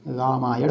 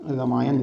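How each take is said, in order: First: रामायण slowly, long raa, retroflex ending; correct pronunciation. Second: रामायण as ra-maa-yan, short start; brief first vowel, plain n in रामायण; wrong spelling read out. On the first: Teacher correcting the word slowly, long first vowel. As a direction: stretch रामायण, curl tongue back at end. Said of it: "होता है". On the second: Teacher reading the mistake, short first vowel. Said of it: "लिखा है". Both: Shown as a demonstration.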